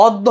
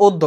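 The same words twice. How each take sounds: First: First অদ্য with an open vowel: "ɔd-do"; rejected pronunciation. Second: অদ্য with a closed first vowel: "od-do"; corrected pronunciation. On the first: Teacher showing the reading to avoid, open first vowel. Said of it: "অদ্য হবে না". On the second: Teacher giving the right reading, o-like first vowel. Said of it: "এটা হবে অদ্য". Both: Shown as a demonstration.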